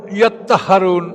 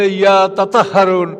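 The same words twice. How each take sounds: First: ইয়াত্তাহারুন with a doubled t, no vowel between; merged pronunciation. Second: ইয়া তাতাহারুন with each t voiced separately; variant pronunciation. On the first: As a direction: run the two t's together in ইয়াত্তাহারুন. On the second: Lecturer quoting how some tribes said it, ইয়া তাতাহারুন with separate syllables. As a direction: open the doubled t into "ta-ta" in ইয়া তাতাহারুন. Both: Shown as a demonstration. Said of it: "এটা কেউ কেউ বলছে".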